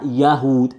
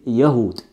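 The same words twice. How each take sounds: First: Yahud with a long drawn-out first vowel, Yaahud; wrong Yahud. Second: Yahud with a short, clipped Ya and no elongation; correct Yahud. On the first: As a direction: stretch the Ya in Yahud like a mistake. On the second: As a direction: say Yahud quickly, the Ya kept short. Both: Shown as a demonstration. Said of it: "There's no mud on the Ya with Yahud".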